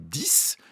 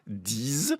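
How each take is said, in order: First: The word ends with an s sound. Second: The word ends with a z sound. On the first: It stands alone at the end of a phrase. "si je veux dire euh, j'en veux dix" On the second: It comes before a word starting with a vowel. "si je veux dire dix amis"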